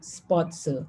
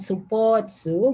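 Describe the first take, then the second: First: The u after s is silent. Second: The u after s is clearly voiced. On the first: The speaker calls it right. "devocalizing the u sound" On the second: The speaker calls it wrong. "this one is not supotsu"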